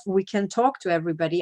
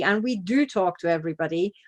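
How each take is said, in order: First: Said in the usual way. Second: "do" stressed, pitch rising on "do". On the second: Shown as a demonstration. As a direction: lean hard on "do".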